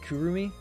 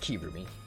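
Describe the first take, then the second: First: The first vowel sounds like 'oo'. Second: The first vowel sounds like 'ee'. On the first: The speaker calls it wrong. "I think I keep pronouncing it Kurumi" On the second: The speaker calls it right. "It's Kirumi"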